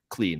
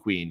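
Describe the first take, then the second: First: The word sounds like 'clean', with an l sound. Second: The word sounds like 'queen', with a w sound. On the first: The speaker calls it right. "I'm very attentive when I say the word clean now" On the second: The speaker calls it wrong. "I would notice when I would say queen"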